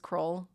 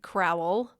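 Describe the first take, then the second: First: The name is said with one syllable. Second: The name is said with two syllables. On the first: This is how the family says it. The speaker calls it right. "my husband's whole family says Kroll" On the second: This is how the spelling looks. The speaker calls it wrong. "It looks like Crowell"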